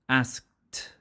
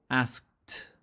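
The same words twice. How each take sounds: First: "asked" again with a crisp t; teacher repeating "asked"; ed as t repeated. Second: "asked" ending in a crisp t; teacher modelling "asked". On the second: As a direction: end "asked" with a sharp t. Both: Shown as a demonstration. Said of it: "then we use t for E D".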